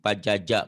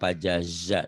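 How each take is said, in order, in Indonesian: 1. Konsonan tengahnya bunyi j. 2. Konsonan tengahnya bunyi z. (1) "Zai dibacanya jim" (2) "Padahal pajaza"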